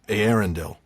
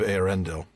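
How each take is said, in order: First: The stress falls on the first syllable. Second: The stress falls on a later syllable. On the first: The speaker calls it wrong. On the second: The speaker calls it right.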